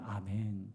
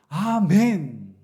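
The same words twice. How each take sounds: First: It is said plainly, without excitement. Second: It is said as an excited exclamation.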